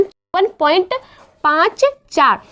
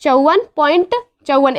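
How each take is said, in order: First: पाँच and चार read one by one; digits after point separated. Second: Said in the usual way. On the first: Shown as a demonstration. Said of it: "उसे हम एक एक करके पढ़ते हैं". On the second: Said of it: "ऐसे नहीं पढ़ेंगे इसे".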